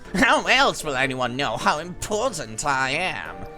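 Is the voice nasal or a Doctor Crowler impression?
nasal. It is said in a nasal voice.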